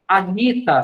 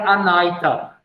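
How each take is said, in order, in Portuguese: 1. A vogal do meio soa como 'ee'. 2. A vogal do meio soa como 'eye'.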